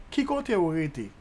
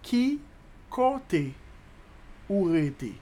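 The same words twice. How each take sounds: First: Said in the usual way. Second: "Qui", "côté", "ou rete" apart, starting high; long pauses between chunks; slow breakdown. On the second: Shown as a demonstration. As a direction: dictate it piece by piece. Teacher breaks Creole question down.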